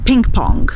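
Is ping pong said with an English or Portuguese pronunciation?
English. It is said with English pronunciation. "Nós também não vamos dizer"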